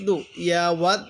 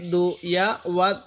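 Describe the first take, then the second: No difference in how they are said.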